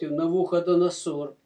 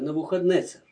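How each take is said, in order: First: The name is said as Navukhodonosor. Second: The name is said as Navukhadnetser. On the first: This is the usual Russian form of the name. The speaker calls it wrong. "по-русски, по-моему, его так и называют" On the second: This is the original form of the name. The speaker calls it right. "А на самом деле это Навухаднецер. Так надо произносить"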